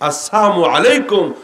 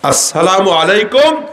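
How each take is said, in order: First: The greeting is pronounced carelessly, with a distorted sound. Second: The greeting is pronounced carefully and clearly. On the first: Die quickly. The speaker calls it wrong. "তাড়াতাড়ি মরো" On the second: Peace be upon you. The speaker calls it right. "তোমার প্রতি শান্তি"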